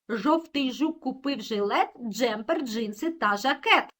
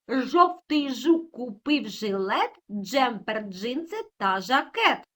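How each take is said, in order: First: It is spoken at a faster pace. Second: It is spoken at a slower, ordinary pace.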